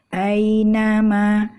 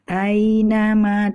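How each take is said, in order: No difference in how they are said.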